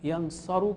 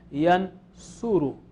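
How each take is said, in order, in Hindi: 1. बीच का स्वर 'a' ध्वनि है। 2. बीच का स्वर 'u' ध्वनि है। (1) "यनसरु के बजाय" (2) "यनसुरु तो ये ऊ जो है इसमें चलेगा"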